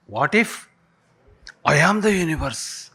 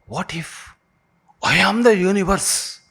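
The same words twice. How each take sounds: First: Said in the usual way. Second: Universe lifted high after a hushed what if; dramatic question. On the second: Shown as a demonstration. Speaker posing the mind-blowing line to the class, building to wonder. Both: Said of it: "Shall we say this now".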